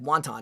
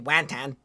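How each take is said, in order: First: The second syllable sounds like 'ton'. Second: The second syllable sounds like 'tan'. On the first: The speaker calls it right. "it's still said wonton" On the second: The speaker calls it wrong. "You don't say wantan"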